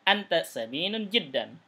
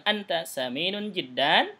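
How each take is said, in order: First: "Anta saminun jiddan" falling, stress on "Anta"; "Anta saminun jiddan" as a plain, falling statement; statement tune. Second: "Anta saminun jiddan" rising on "jiddan" like a question; "Anta saminun jiddan" wrongly turned into a question; question tune. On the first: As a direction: stress "Anta" and let the sentence drop. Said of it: "Tidak, tapi". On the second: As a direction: lift "jiddan" upward, as if asking. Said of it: "itu pertanyaan kalau gitu". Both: Shown as a demonstration.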